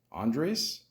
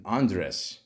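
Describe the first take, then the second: First: Andres tried with a Spanish accent, rising and questioning; accented try. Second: Said in the usual way. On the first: Shown as a demonstration. Vlogger reading a cast name to viewers, unsure accented try. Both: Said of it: "it's got the accent".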